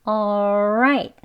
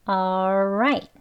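The two takes are said the same way.

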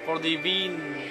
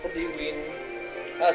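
First: The last word is said as 'veen'. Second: The last word is said as 'win'. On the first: "instead of saying win, I always say Veen" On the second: "I said win right there instead of vin"

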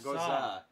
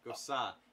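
First: The middle consonant is a buzzing Z sound. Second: The middle consonant is a hissing S sound. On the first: The speaker calls it wrong. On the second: The speaker calls it right. "say it with an S"

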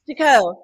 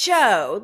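First: It begins with a T sound, two syllables. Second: It begins with a ch sound, one syllable. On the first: The speaker calls it wrong. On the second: The speaker calls it right.

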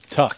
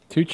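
First: The name ends with a k sound. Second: The name ends with a ch sound. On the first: The speaker calls it right. "Much better" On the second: The speaker calls it wrong. "Am I saying that wrong?"

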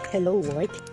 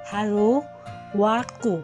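First: It is said with English pronunciation. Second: It is said with Japanese pronunciation. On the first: "Actually, it is Hello World" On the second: "since it is in Nihongo, it is pronounced as Haro Waku"

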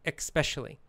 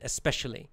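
First: It starts with a K sound, like EKS. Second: It starts with a plain ES sound, no K. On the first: "pronounce it with the K sound" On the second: "That's the dictionary pronunciation"

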